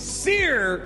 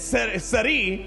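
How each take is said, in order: First: The name is said without a Polish pronunciation. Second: The name is said with a Polish pronunciation. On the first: The speaker calls it right. "the way to say this name is Sir Junda" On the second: The speaker calls it wrong. "my Polish pronunciation kind of kicked in there"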